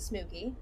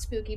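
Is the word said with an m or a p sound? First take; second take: m; p. First: The word is said with an m sound. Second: The word is said with a p sound. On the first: This is how a small child says it. "She says smooky" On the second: This is the usual form of the word. "Not spooky"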